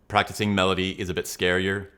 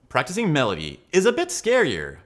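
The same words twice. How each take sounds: First: The pitch stays flat and monotone. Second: The pitch moves widely up and down. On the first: The speaker calls it wrong. "Here's a one" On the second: The speaker calls it right. "Here's a ten"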